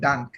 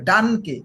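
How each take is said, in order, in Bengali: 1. শব্দটি k-তে শেষ হয়, শেষে কোনো স্বরধ্বনি নেই। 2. শব্দটি k-এর পরে একটি স্বরধ্বনি দিয়ে শেষ হয়। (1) "আপনি কিন্তু প্রথম এই বলে ফেলছেন ডানক।" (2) "এটা হবে ডানকে।"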